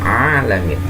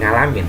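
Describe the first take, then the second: First: The word begins with a deep throat sound. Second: The word begins with a nasal ng sound. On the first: The speaker calls it right. "Agak sedalam ya" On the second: The speaker calls it wrong. "Hati-hati. Bukan ngalamin"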